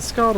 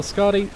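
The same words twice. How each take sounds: First: Scarred said as one syllable, ending on the d; one-syllable pronunciation. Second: Scardy said in two syllables, ending in ee; two-syllable pronunciation. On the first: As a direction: say "Scarred" with no final ee sound. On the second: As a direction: say "Scardy" with an added ee at the end. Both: Shown as a demonstration. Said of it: "saying it wrong".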